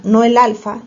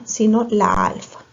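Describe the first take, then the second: First: "el alfa" marcado como la forma errónea, con más fuerza; contraste: "el alfa" incorrecto. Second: "la alfa" dicho más suave como la forma buena; contraste: "la alfa" correcto. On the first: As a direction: di "el alfa" con énfasis de rechazo. ("el alfa", dicho fuerte para descartarlo) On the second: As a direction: remata con "la alfa" tranquilo. ("la alfa", suave y afirmativo) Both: Shown as a demonstration.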